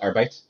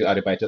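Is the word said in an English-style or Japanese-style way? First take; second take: English-style; Japanese-style. First: It is said in an English-sounding way. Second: It is said with Japanese katakana syllables. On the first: "try to Englishify it" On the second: "instead of saying like I go to Arubaito"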